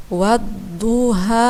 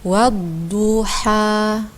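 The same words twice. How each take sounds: First: Wadduha with the du vowel stretched far too long, slowly; overlong vowel. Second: Wadduha with du held for just one alif, slow and chanted; a measured one-beat du in Wadduha; correct length. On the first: Teacher imitating a student's overlong du in Wadduha. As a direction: drag the du in Wadduha well past its length. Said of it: "Sebagaimana yang dibaca oleh saudara kita tadi". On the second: Teacher modelling the proper vowel length, slow chanted. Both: Shown as a demonstration.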